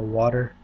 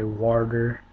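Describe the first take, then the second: First: It is said in a plain standard accent. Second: It is said in a Southern redneck accent. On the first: "instead of" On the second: "Like a redneck would typically say water"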